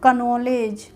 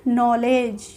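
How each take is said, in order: First: The word starts with a k sound. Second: The word starts with n; k is silent. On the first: The speaker calls it wrong. "न कि कनॉलेज" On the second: The speaker calls it right. "यहाँ से पढ़ना शुरू करेंगे नॉलेज"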